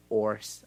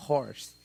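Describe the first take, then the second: First: "horse" said "ors", the h left out; dropped h. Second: "horse" with an audible h; aspirated h. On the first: Teacher demos the wrong h-less horse. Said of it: "A gente não fala". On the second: Teacher demos the correct h in horse. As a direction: breathe out the h at the start of "horse". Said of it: "a gente fala". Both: Shown as a demonstration.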